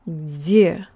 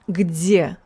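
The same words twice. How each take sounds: First: The opening g sound is weak or missing. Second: The opening g sound is clearly pronounced. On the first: The speaker calls it wrong. "I messed up the last pronunciation a little bit" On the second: The speaker calls it right. "I should have said the g"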